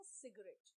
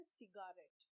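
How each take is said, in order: First: सिगरेट in two syllables, 'sig-ret'; the natural सिगरेट, middle vowel dropped; spoken pronunciation. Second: सिगारेट in three syllables, 'si-gaa-ret'; the as-spelt सिगारेट with a full middle vowel; spelling pronunciation. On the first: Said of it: "बोलते हैं सिगरेट". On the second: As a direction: sound out सिगारेट as written, long 'gaa'. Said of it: "लिखते हैं सिगारेट". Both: Shown as a demonstration.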